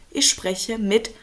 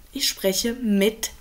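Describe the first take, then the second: No difference in how they are said.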